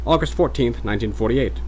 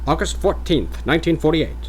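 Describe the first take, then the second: First: Mid-Atlantic date, repeated; formal Mid-Atlantic, settling down; Mid-Atlantic accent. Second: Higher, formal Mid-Atlantic announcer; Mid-Atlantic accent. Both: Acted. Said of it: "mock Mid-Atlantic voice".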